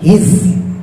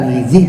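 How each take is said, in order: First: No vowel follows the z sound. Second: The vowel i follows the z sound. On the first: The speaker calls it right. "disukun zainya" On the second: The speaker calls it wrong. "bukan hizi"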